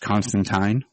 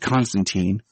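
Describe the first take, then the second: First: The name is said the British way. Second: The name is said the American way. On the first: "the British, I guess, proper pronunciation" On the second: "Keanu's Constantine"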